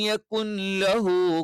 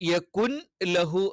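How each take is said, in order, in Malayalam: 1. n ശബ്ദം അടുത്ത l-ൽ ലയിക്കുന്നു. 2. l-ന് മുമ്പുള്ള n ശബ്ദം വ്യക്തമായി ഉച്ചരിക്കുന്നു.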